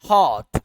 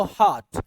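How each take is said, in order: First: हॉट with an open "ah" for the o; American hot. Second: हॉट with a rounded o; British hot. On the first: Teacher demonstrating American हॉट, o turned to a. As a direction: say हॉट as "haht". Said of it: "ए के साथ". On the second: Teacher demonstrating British हॉट, o kept. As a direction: keep the o in हॉट. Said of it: "जबकि British पढ़ेगा इसको". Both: Shown as a demonstration.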